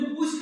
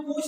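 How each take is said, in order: First: Said in the usual way. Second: पूछ with the ऊ nasalized, as पूँछ; nasalized vowel. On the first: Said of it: "हमारे मुख से सिर्फ वायु". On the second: Shown as a demonstration. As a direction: let air through mouth and nose on the vowel of पूछ. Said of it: "मुंह और नाक दोनों से".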